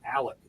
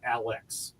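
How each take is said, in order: First: It ends in a k sound, like Alec. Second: It ends in a ks sound, like Alex. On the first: The speaker was born and raised here. The speaker calls it right. "if you were born and raised here, you say I'm from Alec" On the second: The speaker is not from here. The speaker calls it wrong. "not Alex"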